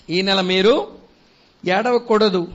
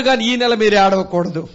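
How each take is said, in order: First: ఈ నెల మీరు, pause, then ఏడవకూడదు set apart and falling; slow emphatic repeat. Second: Said in the usual way. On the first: Shown as a demonstration. Preacher repeats to his congregation, pausing before ఏడవకూడదు.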